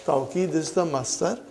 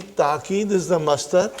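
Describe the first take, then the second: First: "Tawqid" with an aw glide in the first syllable; variant form tawqid. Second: "ta'qid" with a long plain a in the first syllable; variant form ta'qid. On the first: Teacher showing students the first form, "Tawqid" with an aw sound. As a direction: say "Tawqid" opening on tau, like "tow" in towel. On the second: Teacher showing students the second form, "ta'qid" with an a sound. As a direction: say "ta'qid" with no w glide. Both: Shown as a demonstration. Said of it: "I have written tawqid and ta'qid".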